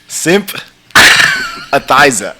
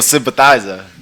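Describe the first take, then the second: First: The word is said slowly, syllable by syllable. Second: The word is said at normal speed.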